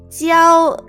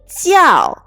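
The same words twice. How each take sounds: First: It is said with the first tone. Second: It is said with a different tone. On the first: It is a verb meaning to teach. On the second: It is used more like a noun.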